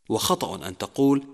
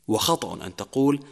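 Both takes have the same delivery.

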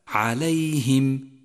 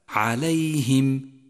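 First: The i vowel after the h is pure. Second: The same.

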